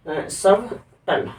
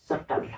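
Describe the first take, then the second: First: सबटल drawn out slowly with the b voiced; subtle as spelt. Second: सटल said softly, no b sound; subtle with silent b. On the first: Teacher reading the spelling with b, slow. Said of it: "spelling क्या होती है?". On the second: Teacher revealing the silent b, soft. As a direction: drop the b: सटल, quietly. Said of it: "लेकिन इसको पढ़ते क्या है?". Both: Shown as a demonstration.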